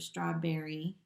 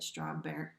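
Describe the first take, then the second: First: The whole word is said, ending included. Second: The end of the word is dropped.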